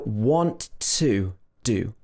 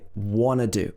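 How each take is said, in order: First: Want to is said in full with both t sounds. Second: Want to is reduced to wanna, without t sounds.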